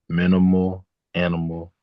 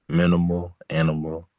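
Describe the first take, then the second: The two takes are said the same way.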